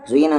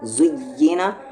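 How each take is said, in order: First: The doubled y is said softly and lightly. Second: The doubled y is pressed hard and firmly. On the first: The speaker calls it wrong. "ज़ुय्यिना नहीं" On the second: The speaker calls it right. "आवाज़ कैसी है, हार्श है"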